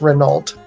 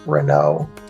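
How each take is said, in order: First: Every letter of the name is pronounced. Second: The final letters of the name are silent. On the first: The speaker calls it right. "there's no like silent letters in my name. It's Renault" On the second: The speaker calls it wrong. "It's not Renault"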